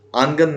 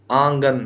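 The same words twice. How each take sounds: First: آنگن with a plain dental n before g, no nasal; wrong nasal n. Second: آنگن with nasal ng, aang-gan; correct nasal. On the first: Teacher showing students the wrong آنگن, clear n. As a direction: say آنگن as aan-gan with a clear n. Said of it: "آنگن نہیں". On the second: Teacher giving students the correct آنگن, nasal ng. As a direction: say آنگن with the n melted into the nasal vowel. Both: Shown as a demonstration.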